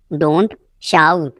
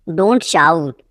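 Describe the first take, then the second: First: "don't", a long pause, then "shout"; word by word. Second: Said in the usual way. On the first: Shown as a demonstration. Teacher drilling learners, one word at a time. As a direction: hold "don't" and "shout" apart.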